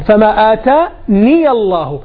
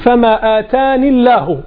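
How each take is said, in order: First: A y sound links the word to the next. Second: The word ends on the n with no y sound. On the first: The speaker calls it right. "عند الوصل كأنك أتيت بياء" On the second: The speaker calls it wrong. "كذي قرأها"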